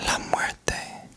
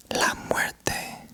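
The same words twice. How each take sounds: The two takes are said the same way.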